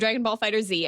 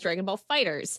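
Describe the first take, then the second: First: The name ends with the letter Z spoken aloud. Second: The name ends with a plain S sound. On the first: The speaker calls it wrong. "or Dragon Ball Fighter Z as" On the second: The speaker calls it right. "apparently we're supposed to pronounce"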